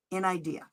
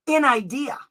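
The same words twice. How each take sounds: First: "In idea" softer, falling, said as the settled name; settled restatement. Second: "In idea" lifted, louder, ending on a rise; rising emphasis. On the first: Restating the term for parents, quiet and falling. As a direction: drop "In idea" down and let it land. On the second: Teaching parents the term, rising emphasis. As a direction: push "In idea" up like a question. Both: Shown as a demonstration.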